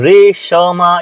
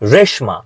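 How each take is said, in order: First: A full vowel separates sh from ma. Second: The sh runs straight into ma. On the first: The speaker calls it wrong. "હવે આને તમે રેશમા એવું નથી કહેતા" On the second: The speaker calls it right. "શ જે છે એ ફટાકથી મા સાથે જોડાઈ જાય છે"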